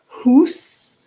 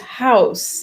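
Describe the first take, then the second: First: The vowel is a plain high oo sound. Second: The vowel glides as a diphthong. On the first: This is the older pronunciation. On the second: This is the modern pronunciation.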